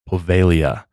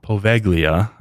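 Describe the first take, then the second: First: The name is not said as it is spelled. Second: The name is said just as it is spelled. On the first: The speaker calls it right. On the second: The speaker calls it wrong.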